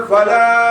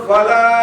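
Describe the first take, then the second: No difference in how they are said.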